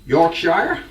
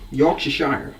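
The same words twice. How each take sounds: First: Said in the usual way. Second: Yorkshire said as a mock American Yorkshire-shire; terrible American accent. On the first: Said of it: "if you're American". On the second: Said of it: "That was my American accent, terrible".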